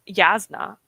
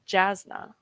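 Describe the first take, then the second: First: The name begins with a Y sound. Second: The name begins with a J sound. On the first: The speaker calls it right. "It's pronounced with a Y sound" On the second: The speaker calls it wrong. "not Jasna"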